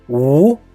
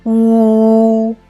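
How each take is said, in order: First: The pitch rises from mid to high. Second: The pitch stays high and level. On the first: "The second tone is U" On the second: "The first tone of U is U"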